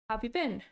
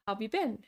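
First: The words are squeezed together with sounds dropped. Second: The same.

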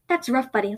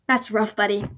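First: It is said in her own normal voice. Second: It is said imitating Zuko's voice.

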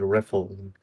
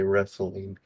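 First: The s sound is said with a lisp. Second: The s sound is said clearly. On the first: "with a lisp" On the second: "technically he didn't say wrestling"

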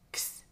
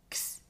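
First: The x is sounded emphatically as k plus s. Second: The same.

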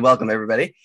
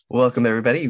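First: It is said with high energy. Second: It is said with low energy.

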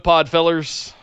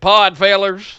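First: It is said in the speaker's ordinary accent. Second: It is said in a put-on southern accent.

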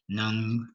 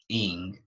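First: The name begins with an N sound. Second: The name begins with a vowel sound. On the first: The speaker calls it wrong. "I'm going to mess up her last name" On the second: The speaker calls it right. "I think it's pronounced like Ing"

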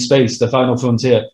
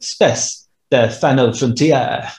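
First: It is said in a plain English accent. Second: It is said in a put-on French accent.

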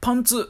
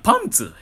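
First: The pitch stays level without dropping. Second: The pitch drops after the first syllable. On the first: It refers to trousers. The speaker calls it wrong. "この常にパンツイントネーションのやつは" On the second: It refers to underwear. The speaker calls it right. "いやいや、パンツやから。"

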